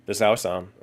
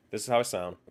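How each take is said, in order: First: Louder, even test line; firm, boosted sound check; louder mic check. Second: Said in the usual way. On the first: Shown as a demonstration. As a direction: say it at a raised level to test the mic. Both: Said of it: "this makes me louder".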